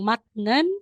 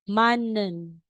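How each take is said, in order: First: A T sound comes before the n. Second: An N sound replaces the T before n. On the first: The speaker calls it wrong. "Kaya sa nasasabihin mong matnen" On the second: The speaker calls it right. "magiging manen"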